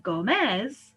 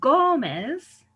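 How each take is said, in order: First: "Gómez" wrongly stressed as go-MEZ; stress moved to last syllable. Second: "Gómez" with a long, loud GÓ; GÓ-mez, leaning on the start of "Gómez"; stress on first syllable. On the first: Teacher shows what the rule would give, "Gómez" stressed on the last syllable. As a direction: punch the final syllable of "Gómez". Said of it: "so we should say". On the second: Teacher gives the example name, "Gómez" stressed on the first syllable. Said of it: "It breaks a rule". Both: Shown as a demonstration.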